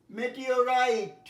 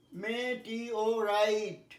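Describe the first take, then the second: First: মেটিওরাইট said slowly as one word, louder; slow, clear model of মেটিওরাইট; e-o pronunciation. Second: মেটিওরাইট very slowly, syllable by syllable; e-o broken apart. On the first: Teacher modelling e-o for pupils, মেটিওরাইট slow and whole. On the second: Teacher showing e-o to pupils, মেটিওরাইট in separate stretched syllables. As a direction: split মেটিওরাইট into me, tee, o, rite. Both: Shown as a demonstration. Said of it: "ই ও".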